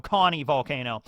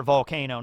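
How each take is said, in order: First: "Connie" stressed as the fix; corrected name. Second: "Connor Volcano" said as the wrong name; name "Connor" said by mistake before the correction. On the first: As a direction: put weight on "Connie" and let it fall. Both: Shown as a demonstration. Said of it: "Not Connor Volcano".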